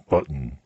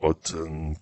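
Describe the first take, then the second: First: The t is released through the nose. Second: The t is released through the mouth. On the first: "자연스럽게 발음을 하는 거는 button" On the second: "어떤 사람들은 button, kitten 이런 식으로 발음하기도 하는데요"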